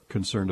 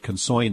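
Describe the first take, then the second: First: The word is said in a neutral accent. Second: The word is said in a New York accent.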